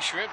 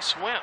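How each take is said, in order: First: The word begins with an 'shr' sound. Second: The word begins with an 'sw' sound. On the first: "we say shrimp" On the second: "they say swimp"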